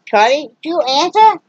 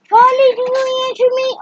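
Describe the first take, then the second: First: Pet talk. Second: Much higher sing-song voice for the dog. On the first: Talking to the pet in baby voice. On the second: Owner cooing at her dog Charlie in high baby talk. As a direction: coo at Charlie in a squeaky pet voice. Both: Real, not acted.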